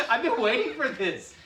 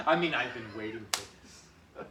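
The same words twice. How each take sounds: First: High, loud, slow relish; gleeful villain. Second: Said in the usual way. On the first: Acted. Partner joining the skit in a high, slow, gleeful voice. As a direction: savour the line like a villain. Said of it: "S1 plays along". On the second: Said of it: "S1 repeats plainly".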